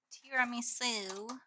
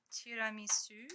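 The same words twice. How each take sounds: First: Said in the usual way. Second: Tiramisu said with a French accent; French-style tiramisu. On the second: Shown as a demonstration. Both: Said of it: "which I said in French".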